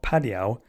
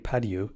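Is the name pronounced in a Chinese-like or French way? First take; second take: Chinese-like; French. First: The name is pronounced in a Chinese-like way. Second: The name is pronounced in a French way. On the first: The speaker calls it wrong. "I may have pronounced that guy's name wrong" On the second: The speaker calls it right. "It's probably Padieu, because if he's French"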